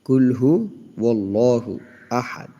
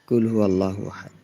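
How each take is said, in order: First: A 'w' sound joins 'hu' to 'Allahu'. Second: No 'w' sound comes before 'Allahu'. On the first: The speaker calls it right. "এখানে ওয়াল্লাহু হবে।" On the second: The speaker calls it wrong. "এখানে অন্যরকম বলে বসে থাকে"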